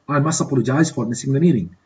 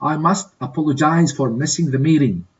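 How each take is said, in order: First: Rattled off fast in one breath; quick repeat. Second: Said in the usual way. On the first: Shown as a demonstration. Teacher repeating the apology for students, fast. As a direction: run the apology together quickly, like natural speech. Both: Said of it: "Complete these dialogues in a suitable way".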